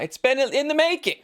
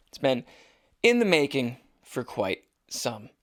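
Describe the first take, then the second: First: Much higher, mock-grand delivery; hammed-up high voice. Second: Said in the usual way. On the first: Host hyping the long-awaited show, hammed-up high voice. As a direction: pitch it way up for comic hype. Hammed-up restatement of his hype.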